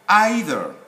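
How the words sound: It is said with the British pronunciation. "the standard sound is normally either in the U K"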